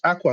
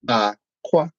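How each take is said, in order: First: The pitch goes high then lower. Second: The pitch goes low then high. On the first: It means clothes. "with the tone markings of the way you would say water" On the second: It means egg. "the tone marks are going to be down and up"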